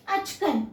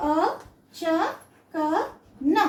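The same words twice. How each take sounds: First: "అచ్కన్" joined as ach-kan; "అచ్కన్" with bare ch and bare n; half second and fourth. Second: "అ, చ, క, న" as four separate full syllables; "అ, చ, క, న" with a vowel on every letter. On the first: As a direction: say "అచ్కన్" in two beats, no final vowel. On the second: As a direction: spell out "అ, చ, క, న" with pauses. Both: Shown as a demonstration. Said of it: "చ half".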